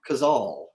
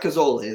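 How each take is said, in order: First: The name ends on the consonant sound. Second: The name ends with an extra vowel sound. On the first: The speaker calls it right. "I think it's Kozol" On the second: The speaker calls it wrong. "And it's not Kozole. There's no E on the end"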